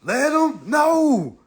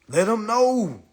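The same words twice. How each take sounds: First: Very slow, stretched Let 'em know; slow rallying call Let 'em know; drawn-out let 'em know. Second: Said in the usual way. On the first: Shown as a demonstration. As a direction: lean on each word of Let 'em know, slowly. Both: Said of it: "Tell 'em, let 'em know".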